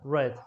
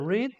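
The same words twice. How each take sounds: First: The vowel is short, like in 'red'. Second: The vowel is long, like in 'reed'. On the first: It refers to the past. "past, read" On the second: It refers to the present. "so present, we say read"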